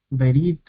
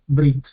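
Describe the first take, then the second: First: A short vowel follows the first consonant. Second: No vowel follows the first consonant. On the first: "si bien es una vocalización corta" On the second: "en hebreo moderno eh, prácticamente no, no suena directamente, lo dicen Brit"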